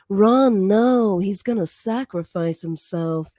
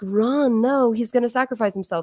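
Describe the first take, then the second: First: It is said in a sultry, seductive voice. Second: It is said in a plain, ordinary voice.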